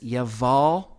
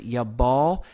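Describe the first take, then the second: First: The middle consonant is a V sound. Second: The middle consonant is a B sound. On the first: "in the Hebrew roots version, it says Yaval" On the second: "In Strong's Concordance, it says Yabal"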